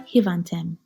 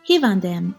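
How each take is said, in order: First: It is said with a 't' sound, Western Armenian. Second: It is said with a 'd' sound, Eastern Armenian.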